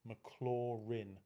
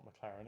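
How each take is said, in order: First: The last syllable rhymes with bin. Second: It sounds like the race car brand name. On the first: The speaker calls it right. "like bin, dust bin, rin, McLaurin" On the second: The speaker calls it wrong. "you hear them say McLaren, like race car McLaren. It's not McLaren"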